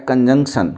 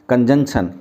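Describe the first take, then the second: Both takes have the same delivery.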